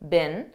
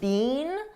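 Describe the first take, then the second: First: The word is said quickly and unstressed. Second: The word is said fully and stressed. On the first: "a very unstressed been ... in American English" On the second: "in British English they pronounce it more stressed"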